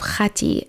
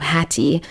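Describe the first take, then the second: First: The name begins with a rough throaty kh sound. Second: The name begins with a plain soft h sound. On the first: "the land of Khati, as it was called" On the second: "if you don't pronounce the, the Kha, it's usually pronounced the land of Hatti"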